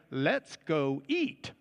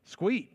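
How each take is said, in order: First: The phrase is said as three full words. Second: The phrase is squeezed into one short word. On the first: It is the general way of saying it. "Or you might say" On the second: It is local Texas talk. "That's Lubbock talk for let's go eat"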